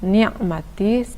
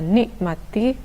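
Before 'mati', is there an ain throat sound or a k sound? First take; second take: ain; k. First: A throaty ain comes before 'mati'. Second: A k sound comes before 'mati'. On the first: The speaker calls it right. "harusnya ni'mati" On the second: The speaker calls it wrong. "ada yang membaca nikmati"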